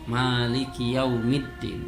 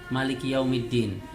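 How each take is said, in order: First: The first vowel of Maliki is long. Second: The first vowel of Maliki is short. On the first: "Ma-nya panjang" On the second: "Kalau bacanya malikinya pendek"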